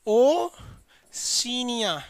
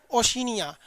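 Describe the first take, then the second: First: Drawn-out. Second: Said in the usual way. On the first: Shown as a demonstration. Teacher drawing out Oceania for students to repeat. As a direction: stretch the word Oceania very long and slow. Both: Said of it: "कौन सा है?".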